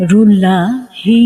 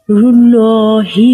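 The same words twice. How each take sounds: First: "রুল্লাহি" drawn out as "rullaaa-hi"; light, held open middle in "রুল্লাহি"; wrong light lam. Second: "রুল্লাহি" drawn out as "rullooo-hi"; heavy, held middle in "রুল্লাহি"; correct heavy lam. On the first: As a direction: say "রুল্লাহি" slowly with a thin L and open a. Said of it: "নয়". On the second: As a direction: say "রুল্লাহি" slowly with a thick L and rounded vowel. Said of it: "হবে". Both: Shown as a demonstration.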